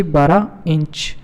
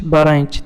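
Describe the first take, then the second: First: "बारह इंच" drawn out slowly, each word weighed; slow emphatic answer. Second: Said in the usual way. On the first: Shown as a demonstration. Teacher giving the quiz answer to students, slow and emphatic. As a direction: spell out "बारह इंच" slowly so the class remembers it. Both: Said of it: "तो कितनी होनी चाहिए?".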